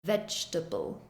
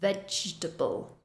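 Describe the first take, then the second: First: The middle syllable is reduced. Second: The middle syllable is reduced.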